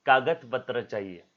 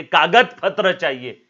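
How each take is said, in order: First: Said in the usual way. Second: कागज पत्र चाहिए said slow, higher and much louder, कागज punched; stress on कागज. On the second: Shown as a demonstration. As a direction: hammer home कागज, slow and loud.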